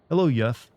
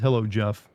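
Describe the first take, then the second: First: The name begins with a Y sound. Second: The name begins with a J sound. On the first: The speaker calls it right. "you can be proud of being called Yef" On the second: The speaker calls it wrong. "Versus hello, Jeff"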